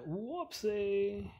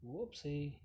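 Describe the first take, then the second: First: "whoopsie" drawn out slowly, high and loud; exaggerated whoopsie. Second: Said in the usual way. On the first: Player fumbling in game, exaggerated sing-out "whoopsie". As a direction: stretch "whoopsie" long, jumping up in pitch.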